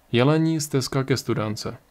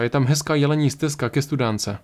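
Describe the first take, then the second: First: Resigned repeat. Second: Said in the usual way. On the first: Acted. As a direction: repeat "Jelení stezka ke studánce" to himself, almost giving up. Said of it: "zopakoval pro sebe na pokraji rezignace".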